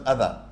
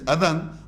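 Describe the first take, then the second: First: The word ends in a vowel, without n. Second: The word ends with an n sound. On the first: "when you pause it, it becomes adha" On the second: "it is adhan"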